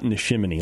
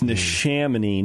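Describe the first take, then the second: First: The middle syllable has an 'eye' vowel. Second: The middle syllable has a 'sham' vowel. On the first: The speaker calls it wrong. "not Neshaminy" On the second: The speaker calls it right. "It's Neshaminy"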